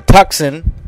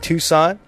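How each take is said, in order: First: The c is sounded, as in tuck-son. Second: The c is silent, as in too-sahn.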